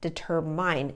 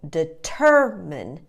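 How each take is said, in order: First: The stress is not on the second syllable. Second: The stress is on the second syllable. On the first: The speaker calls it wrong. "The mistake that students often make" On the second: The speaker calls it right. "the stress is on the second syllable"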